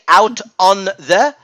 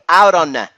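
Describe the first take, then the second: First: The words are said separately, not linked. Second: The words are linked smoothly into each other. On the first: The speaker calls it wrong. "I don't say" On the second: The speaker calls it right. "I say"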